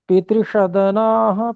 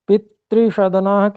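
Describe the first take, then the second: First: The first syllable is unstressed. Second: The first syllable is stressed. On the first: The speaker calls it right. "त्रुटि हुई, इसको सुधार सकते हैं" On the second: The speaker calls it wrong. "प में जो ई है उस पे दबाव देने की अपेक्षा आवश्यकता नहीं है"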